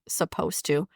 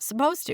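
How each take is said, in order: First: The two words are said separately. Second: The two words are run into one word. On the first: "we don't say supposed to" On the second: "It's all one word"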